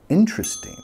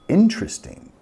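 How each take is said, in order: First: The second syllable is dropped, leaving three syllables. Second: The same.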